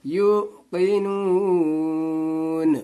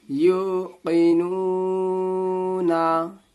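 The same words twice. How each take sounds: First: यू की नून said slowly, ending on a held नून instead of ना; stop at verse end. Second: यू की नू ना read slowly as one joined run, drawing out की; joined through, no stop. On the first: Teacher showing how to pause at the verse end, slow stop on नून. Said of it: "वक्फा करेंगे". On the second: Teacher showing the reading that ignores the verse end, slow and joined. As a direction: glide slowly through यू की नू ना without pausing. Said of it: "तो यू की नू ना नहीं पढ़ेंगे". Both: Shown as a demonstration.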